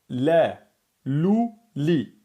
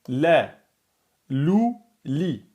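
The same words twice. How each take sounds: No difference in how they are said.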